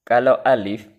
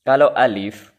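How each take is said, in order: Both takes have the same delivery.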